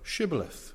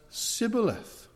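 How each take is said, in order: First: The word begins with an 'sh' sound. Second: The word begins with a plain 's' sound. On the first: "They asked them to say one word" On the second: "they struggled to say shh. So for the Ephraimites, it came out as sibboleth"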